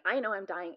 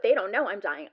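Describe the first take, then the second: First: First I stressed, then falling. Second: THEY hit loud in "they don't know"; stress on THEY. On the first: Patient certain unlike the staff, stress on first I. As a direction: lean on the first "I" in "I know". Contrasts her knowing with theirs. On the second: Patient thinking of the staff, loud stress on THEY. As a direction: punch "they" hard, much louder than usual. Contrasts their knowing with her own. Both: Retold or imitated.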